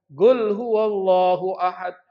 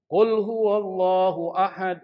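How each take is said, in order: First: Slow Hadrami-accented chant, GUL for qul; logat Hadramut. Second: Said in the usual way. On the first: Shown as a demonstration. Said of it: "dengan logat Hadramut". (lantunan logat Hadramut, qaf jadi "Gul") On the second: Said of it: "Kul, bacanya gul".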